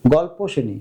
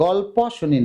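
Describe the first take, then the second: First: "গল্প" as "gol-po"; closed ending. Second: "গল্প" ending in open "paw"; wrong open ending. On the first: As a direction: round the end of "গল্প" to ও. (শেষে ও দিয়ে "গল্প") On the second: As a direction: leave the last vowel of "গল্প" unrounded. (শেষে খোলা অ দিয়ে "গল্প") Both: Shown as a demonstration. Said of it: "না, গল্প শুনি না".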